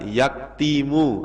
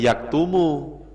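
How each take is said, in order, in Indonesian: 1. Vokal setelah t adalah i. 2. Vokal setelah t adalah u. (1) "Tidak boleh dibaca" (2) "Ya tetap bacanya yaktumu"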